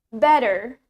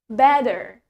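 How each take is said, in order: First: The t is softened toward a d sound. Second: The same.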